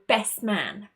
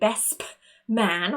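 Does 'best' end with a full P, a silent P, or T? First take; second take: silent P; full P. First: The lips close for P without sounding it. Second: The word 'best' ends with a fully spoken P. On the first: The speaker calls it right. "our mouth moves into the position of the letter P, but we don't actually say that sound" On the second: The speaker calls it wrong. "we don't necessarily say best man. We don't want to over-exaggerate"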